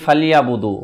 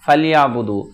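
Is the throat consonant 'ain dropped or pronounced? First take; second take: dropped; dropped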